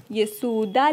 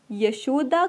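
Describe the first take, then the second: First: यशोदा said "ya-so-da", s in place of sh; poetic sound change. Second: Said in the usual way. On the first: Shown as a demonstration. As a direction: soften the sh of यशोदा to a plain s. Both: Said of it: "ध्वनि परिवर्तित हो जाती है".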